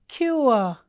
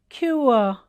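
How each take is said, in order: The two takes are said the same way.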